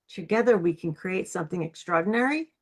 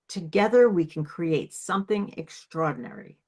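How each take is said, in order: First: The pitch rises at the end. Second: The pitch falls at the end.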